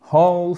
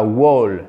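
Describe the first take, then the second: First: WHOLE said like "hole"; silent W. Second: WHOLE beginning with a W, like "wole"; wrongly sounded W. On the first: Teacher modelling the correct word, W left silent. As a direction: start WHOLE on an H, no W sound. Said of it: "le W ne se prononce pas". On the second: Teacher warning francophone learners, W mispronounced. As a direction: lean on a W at the start of WHOLE. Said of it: "pas whole". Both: Shown as a demonstration.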